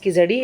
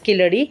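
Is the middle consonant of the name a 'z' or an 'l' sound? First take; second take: z; l. First: The middle consonant is a 'z' sound. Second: The middle consonant is an 'l' sound. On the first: The speaker calls it wrong. "it's not pronounced as Kizadi" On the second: The speaker calls it right. "it's Kiladi"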